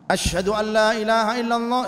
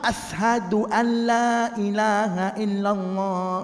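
First: Asyhadu is said with an 'sh' sound. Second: Asyhadu is said with an 's' sound. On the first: The speaker calls it right. "shin, bukan sin" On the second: The speaker calls it wrong. "enggak sah"

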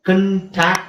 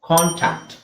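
First: The first syllable has a short, weak vowel. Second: The first syllable has a long, full vowel. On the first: The speaker calls it wrong. "ಇದು ಕಂಟ್ಯಾಕ್ಟ್ ಅಲ್ಲ" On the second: The speaker calls it right. "ಇಲ್ಲಿ CON ನ ಕಾನ್"

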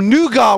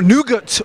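First: Nougat is said with a British pronunciation. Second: Nougat is said with an American pronunciation.

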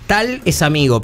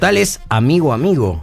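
First: The word amigo is said plainly. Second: The word amigo is said with strong emphasis. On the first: The person is simply a friend. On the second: The person is a really good friend.

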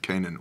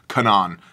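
First: Canaan is said with the usual English pronunciation. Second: Canaan is said with a modern Hebrew pronunciation.

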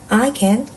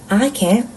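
No difference in how they are said.

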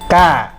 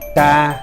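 First: The tone goes up slightly higher. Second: The tone stays level at mid pitch. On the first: "tiếng nó sẽ lên cao một chút" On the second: "tiếng xá măn"

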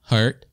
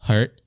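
The two takes are said the same way.

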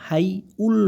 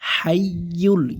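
First: The second syllable begins with a plain vowel. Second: The second syllable begins with a y-sound. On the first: The speaker calls it wrong. "এরকম হাই উল নয়" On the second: The speaker calls it right. "উল বলা যাবে না"

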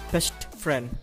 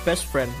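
First: The t at the end of best is pronounced. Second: The t at the end of best is dropped. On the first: The speaker calls it wrong. "not best friend" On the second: The speaker calls it right. "it pronounces as best friend"

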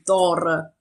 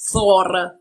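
First: The name is said in the usual modern way. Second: The name is said with Old Norse pronunciation.

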